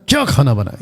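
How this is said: It sounds harsh and scolding. The cook is being scolded. "ये है डांटना"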